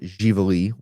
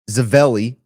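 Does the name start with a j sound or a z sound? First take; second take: j sound; z sound. First: The name starts with a j sound. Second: The name starts with a z sound. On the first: This is how the family says the name. "We pronounce it Jivalee Winery" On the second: This is how some outsiders say the name. "some people know it"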